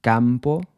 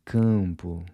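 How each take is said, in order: First: Campo with an English A, lips closing on the M; wrong pronunciation. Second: Campo with a nasal vowel and lips never touching; Portuguese nasal. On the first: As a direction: campo as an English speaker would say it. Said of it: "So it's not". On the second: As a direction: say campo with no lip closure on the M. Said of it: "Lips never touch to pronounce that M". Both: Shown as a demonstration.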